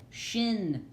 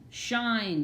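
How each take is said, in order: First: "shin" with a short "ih", higher; short-vowel "shin", deliberate. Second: "shine" with an "eye" vowel, higher; long-vowel "shine", deliberate. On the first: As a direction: say "shin" as a closed syllable. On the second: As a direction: let the I in "shine" say its name. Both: Shown as a demonstration. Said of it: "You hear the difference".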